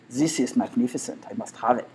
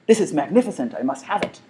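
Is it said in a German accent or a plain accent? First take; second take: German; plain. First: It is said in a German accent. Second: It is said in the speaker's plain accent.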